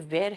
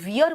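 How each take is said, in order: First: The vowel sounds like the one in 'air'. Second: The vowel sounds like the one in 'ear'. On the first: The speaker calls it right. "ये वेयर है" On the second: The speaker calls it wrong. "इसको वियर मत कहना"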